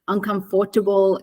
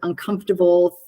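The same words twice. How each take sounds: First: It is pronounced closely following its spelling. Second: It is pronounced in the usual standard way. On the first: The speaker calls it wrong. "she actually gets really common words wrong" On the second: The speaker calls it right. "instead of"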